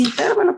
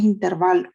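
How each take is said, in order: First: "intervalo" con el acento desplazado, como "intérvalo"; variante discutida. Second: "intervalo" con acento en "va", sin acento escrito en la a; pronunciación correcta. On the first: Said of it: "hay una duda si se pronuncia intervalo o intervalo". ("intervalo" dicho a la manera que se debate) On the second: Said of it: "la pronunciación es intervalo". ("intervalo" pronunciado como manda el diccionario) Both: Shown as a demonstration.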